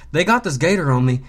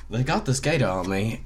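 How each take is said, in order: First: It is said in an imitated American voice. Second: It is said in a British accent. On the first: "I'm going to try to read it in his voice" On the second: "try it in a British accent"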